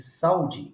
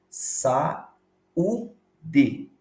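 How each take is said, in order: First: The u is weak and joined to the a. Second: The a and u are split into separate syllables. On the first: The speaker calls it wrong. "eu estaria afirmando que o U não é uma sílaba tônica" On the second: The speaker calls it right. "Eu pego a palavra e divido pausadamente"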